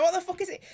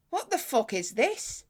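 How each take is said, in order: First: Higher, mock-baffled take on the fella; baffled tech bloke. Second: Slow, puzzled imitation of the fella; baffled tech bloke. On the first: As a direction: pitch it up in disbelief. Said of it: "he's like". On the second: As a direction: draw it out like he's never seen one. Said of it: "He goes".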